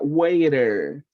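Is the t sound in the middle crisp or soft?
soft. The middle t is a soft, quick flap. "That is more like the American side"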